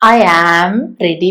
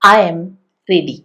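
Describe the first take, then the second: First: The word 'am' is said fully with a clear vowel. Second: The word 'am' is reduced to a short 'm'. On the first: The speaker calls it wrong. "വേണ്ട" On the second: The speaker calls it right. "അത് വീക്കായിട്ട് ഉപയോഗിക്കുന്നത് എം എന്നാണ്"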